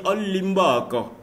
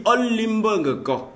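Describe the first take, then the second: First: On limbe encore run together at normal pace; contracted On limbe encore; shortened liaison form. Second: On limbe encore slow and higher, syllables kept apart; careful full On limbe encore; full careful form. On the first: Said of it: "on peut dire". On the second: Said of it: "au lieu de dire". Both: Shown as a demonstration.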